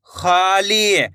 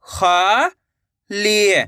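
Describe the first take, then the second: First: Said in the usual way. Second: "खाली" split into two long syllables. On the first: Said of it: "तो मिलके बन जाएगा". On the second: Shown as a demonstration. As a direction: draw out खा, pause, then ली in "खाली". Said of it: "एक एक अक्षर का उच्चारण". ("खाली" को तोड़कर, खा... ली)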